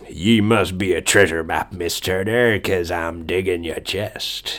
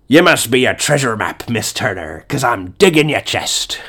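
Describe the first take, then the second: First: It is said in an ordinary speaking voice. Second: It is said in a Barbossa pirate voice.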